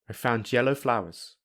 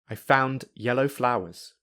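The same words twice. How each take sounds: First: The d and yellow merge into j. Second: The d and yellow are kept separate. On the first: "I will use linking" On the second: "I will say them without linking"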